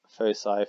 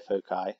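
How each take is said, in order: First: "foci" with a soft c, FOH-sigh; "foci" with an s sound in the middle; soft-c pronunciation. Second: "foci" with a hard c, FOH-kye; "foci" with a k sound in the middle; hard-c pronunciation. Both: Shown as a demonstration. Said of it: "you may also see that pronounced".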